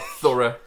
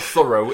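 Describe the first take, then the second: First: The word is said in a non-American accent. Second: The word is said in an American accent.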